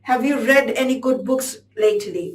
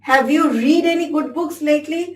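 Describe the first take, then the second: First: 'Read' is said with a short e vowel. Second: 'Read' is said with a long ee vowel. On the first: The speaker calls it right. "রেড হবে।" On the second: The speaker calls it wrong. "এখানে রিড হবে না"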